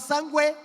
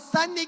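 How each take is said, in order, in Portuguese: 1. Um som de u é ouvido depois do g. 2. Um som de n separado é ouvido depois da vogal. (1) "O U é pronunciado? Não, você não fala sangue" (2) "Você não fala sangue"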